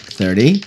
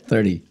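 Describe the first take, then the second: First: The voice rises at the end. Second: The voice falls at the end.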